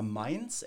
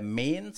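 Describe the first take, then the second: First: Said in the usual way. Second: "Mainz" said as "Meenz", with a long e; local dialect pronunciation. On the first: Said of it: "som det heter på lokal". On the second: Shown as a demonstration. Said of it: "som det heter på lokal dialekt".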